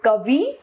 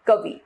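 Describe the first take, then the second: First: कवि with a long rising final ee; wrong pronunciation. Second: Said in the usual way. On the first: Shown as a demonstration. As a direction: say कवि as kuh-vee. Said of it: "अशुद्ध रूप". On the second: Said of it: "इसका शुद्ध रूप".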